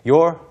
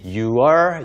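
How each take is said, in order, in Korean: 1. 한 음절로 줄여서 발음해요. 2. 완전히 두 음절로 발음해요. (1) "짧게 your, your처럼 발음이 돼요" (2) "you are를 굳이 you are, you are 발음하는 경우는 많지 않습니다"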